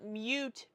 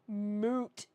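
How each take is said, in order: First: The word begins with a 'myoo' sound. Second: The word begins with a plain 'moo' sound. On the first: The speaker calls it wrong. "not mute point" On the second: The speaker calls it right. "It's moot"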